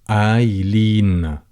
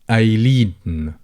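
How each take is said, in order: The two takes are said the same way.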